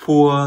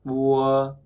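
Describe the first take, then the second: First: "pua" with a clear puff after the p; aspirated p. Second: "pua" with no burst of air, leaning toward b; unaspirated p. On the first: Teacher showing learners the second sound, "pua" with aspiration. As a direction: release a stronger breath on the p of "pua". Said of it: "nó có là âm bật hơi". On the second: Teacher showing learners the first sound, "pua" without breath. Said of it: "Cái đây là không bật hơi". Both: Shown as a demonstration.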